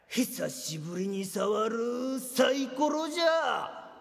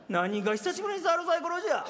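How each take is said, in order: First: Slow, put-on old-man line; pretend old man. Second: Put-on scoffing echo of the old-man line; mocking retort. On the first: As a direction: drag it out like a veteran gambler. (年寄りを装って、ゆっくりしみじみ言う) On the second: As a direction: throw the words back, scornful. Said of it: "しょっちゅうやってるやないか". (相手の台詞を鼻で笑ってオウム返しに言う)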